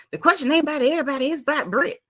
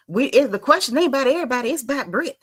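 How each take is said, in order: First: Fast, higher put-on Portia voice, rattled off; mock Portia. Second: Said in the usual way. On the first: Host mimicking Portia pressing Kenya, fast mock voice. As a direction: rush it like a pushy castmate. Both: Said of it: "talking about".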